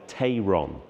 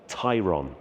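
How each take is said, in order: First: The first syllable sounds like 'tay'. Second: The first syllable sounds like 'tie'. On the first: This is how an English reader would say it. The speaker calls it wrong. "in English you would probably read that and say Tayron" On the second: This is the German pronunciation. The speaker calls it right. "it's actually Tayron. The T A Y is Ty in German"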